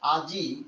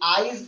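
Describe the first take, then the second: First: The i vowel comes at the end of the word. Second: The i vowel comes before the final consonant. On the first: "শেষে একটা রস্যই আছে না?" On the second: "ওইটা মাঝখানে আগে চলে আসছে"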